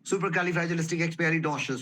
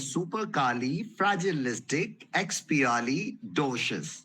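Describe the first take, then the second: First: The word is said very quickly. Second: The word is said slowly and carefully. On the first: "इसकी speed और बढ़ा देंगे।" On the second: "अब इसको आराम आराम से बोलेंगे।"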